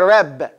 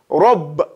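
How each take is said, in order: First: The R sound is thin and light. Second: The R sound is full and heavy. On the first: The speaker calls it wrong. "He didn't give it all that he had to give it" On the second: The speaker calls it right. "Now we know Ra is tafkhiman"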